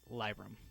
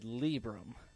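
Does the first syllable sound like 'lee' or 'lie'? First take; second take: lie; lee. First: The first syllable sounds like 'lie'. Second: The first syllable sounds like 'lee'. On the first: This is the speaker's own way of saying it. "so I pronounce it Librum" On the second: Someone else says it this way. "Trade Chat said Librum"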